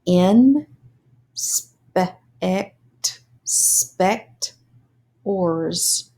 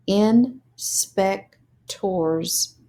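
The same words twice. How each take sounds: First: "Inspect spect ors" split into syllables; sounded out syllables. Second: "Inspectors" blended very slowly; slow blended word. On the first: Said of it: "read the syllables and then put it together". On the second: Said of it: "put it together as words". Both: Shown as a demonstration.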